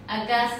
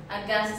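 No difference in how they are said.

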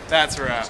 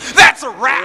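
First: It is said flatly, without conviction. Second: It is said with real conviction.

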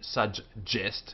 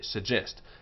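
First: The middle 'g' sound is held long, doubled. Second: The middle 'g' sound is short, single. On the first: The speaker calls it wrong. "We don't say suggest" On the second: The speaker calls it right. "we say suggest"

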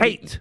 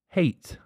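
First: The word is said loudly, almost shouted. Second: The word is said in a lowered, quieter voice. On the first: The speaker calls it wrong. "but you went, hate. You shouted" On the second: The speaker calls it right. "Why not lower your voice when that word hate goes"

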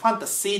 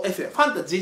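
First: The last syllable has a voiceless 'shee' sound. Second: The last syllable has a voiced 'jee' sound. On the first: The speaker calls it right. "ファンタシーだからね" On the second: The speaker calls it wrong. "ファンタジーじゃなくて"

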